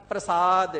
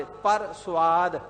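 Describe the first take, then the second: First: Said in the usual way. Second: ਪਰ ਸੁਆਦ said slowly as two separate words; split into two words. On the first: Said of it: "ਰਸਾਂ ਦੇ ਵਿੱਚ ਲਿਪਾਏ ਮਾਨਗੀ ਨੂੰ ਧਾਰਨ ਨਹੀਂ". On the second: Shown as a demonstration. Preacher to congregation, ਪਰ ਸੁਆਦ split slowly into two words. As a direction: stretch out ਪਰ ਸੁਆਦ to show "beyond taste" inside ਪ੍ਰਸਾਦ. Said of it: "ਉਹ ਖਾਣੇ ਪੀਣੇ ਦੇ".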